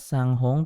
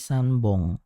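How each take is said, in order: First: The ending begins with a p sound. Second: The ending begins with a b sound. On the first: The speaker calls it wrong. "bukan sanghong" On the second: The speaker calls it right. "tapi sanbong"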